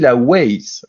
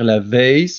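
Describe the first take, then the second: First: The W is said with a W sound. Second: The W is said with a V sound. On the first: This is how it is said in Belgium. "en Belgique, on dit la Weiss ... le W chez nous, on le dit toujours way" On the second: This is how it is said in Switzerland or France. "C'est la première fois que j'entends la Weiss se dire la Weiss"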